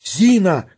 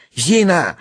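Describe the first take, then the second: First: High, urgent summons; calling out. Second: Higher, mildly panicky call; frightened yell. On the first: Bormental calls the maid a second time, urgent cry. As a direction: call "Зина" sharply from afar. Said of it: "кричал Барменталь". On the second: Sharikov calls the maid in fear, frightened cry. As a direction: call "Зина" with a touch of fright. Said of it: "орал испуганный Шариков". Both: A narrator's reading.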